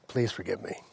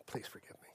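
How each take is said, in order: First: Very low, soft plea; hushed apology. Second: Near-silent whispered plea; whispered apology. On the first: Father asking his daughter's forgiveness, hushed apology. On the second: Father repeating his apology to his daughter, whispered plea. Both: Retold or imitated.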